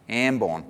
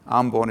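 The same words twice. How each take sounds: First: The name is said with an Australian pronunciation. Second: The name is said with an Indonesian pronunciation. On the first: "I can't even say it with an Australian accent. Ambon. Is that close?" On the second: "Ambon is how we pronounce it in Indonesia"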